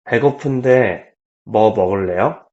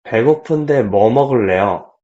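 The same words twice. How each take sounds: First: 배고픈데, small break, then 뭐 먹을래요; pause after 배고픈데. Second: 배고픈데 뭐 먹을래요 run together without a break; no pause. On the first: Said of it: "number two was". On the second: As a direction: say 배고픈데 뭐 먹을래요 as one unbroken phrase. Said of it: "First, again". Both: Shown as a demonstration.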